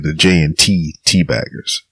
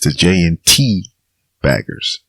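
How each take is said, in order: First: An extra T sound comes before Baggers. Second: A single T sound comes before Baggers. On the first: The speaker calls it wrong. "I want to say the J N T T-Baggers" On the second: The speaker calls it right. "So it's the J N T Baggers"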